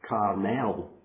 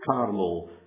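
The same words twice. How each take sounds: First: The vowel of the final syllable is clearly sounded. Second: The vowel of the final syllable is swallowed. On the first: It means the Mount of God. The speaker calls it right. "we should really call it Carmel, because E-L at the end is God" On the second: It sounds like the name of a sweet. The speaker calls it wrong. "Us Scots people are very good at swallowing our vowels"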